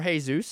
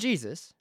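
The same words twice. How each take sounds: First: The name is said with a Spanish pronunciation. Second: The name is said with an English pronunciation.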